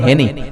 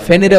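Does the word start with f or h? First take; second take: h; f. First: It starts with an h sound, Feni style. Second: It starts with an f sound.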